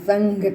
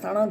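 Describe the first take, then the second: First: An ng sound comes before the gh. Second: A retroflex n sound comes before the gh. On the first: The speaker calls it right. "પણ સંઘ કરીએ છીએ, અંગ ઉચ્ચાર કરીએ છીએ" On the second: The speaker calls it wrong. "નથી કરતા"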